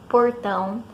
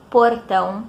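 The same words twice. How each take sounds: First: The R has a strong regional inland coloring. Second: The R is pronounced in a neutral way. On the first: It marks the speaker as from one region. "eu costumo falar R assim" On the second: It suits an audience from the whole country. "o que eu deveria falar como dublador"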